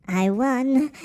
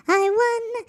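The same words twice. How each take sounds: First: Said in the usual way. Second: Very high, squeaky boast; high-pitched cartoon voice. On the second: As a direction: gloat like a tiny cartoon turnip. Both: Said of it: "when I do the high-pitched voice".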